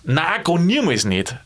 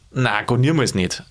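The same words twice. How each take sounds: First: "Nein, gar niemals nicht" drawn out slowly, each negation weighted; emphatic, slow stress on every negation; stronger emphatic no. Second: "Na, gar niemals nicht" said easily, without aggression; gently friendly triple no; friendly refusal. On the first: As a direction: lean slowly on "niemals" in a firm refusal. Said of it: "ich hab's jetzt stärker betont". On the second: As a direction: turn it down in a friendly way. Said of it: "freundlich sagen". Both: Shown as a demonstration.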